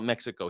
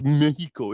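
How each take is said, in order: First: Said in the usual way. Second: Mexico with a breathy h, as "Meh-hee-ko"; Mexico said as "Meh-hee-ko", Spanish style. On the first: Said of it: "We call it Mexico here". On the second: Shown as a demonstration. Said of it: "It's pronounced".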